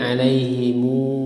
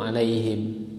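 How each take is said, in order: First: The final m is followed by a u vowel. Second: The word ends on a bare m sound. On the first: This is the reading of Ibnu Katsir and Abu Ja'far. "menyambungkan dhammah mim jamak" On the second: This is the reading of the other reciters. "dengan sukun"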